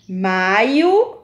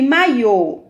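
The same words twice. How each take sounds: First: "Maio" stressed on the MAI, final o weak; stress on first syllable. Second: "maiô" stressed on a long closed final Ô; stress on final syllable. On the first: Teacher contrasting the board's words, "Maio" stressed at the start. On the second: Teacher contrasting the board's words, "maiô" stressed at the end. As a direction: say "maiô" slowly, landing on the last syllable. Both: Shown as a demonstration. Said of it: "todas têm acento circunflexo".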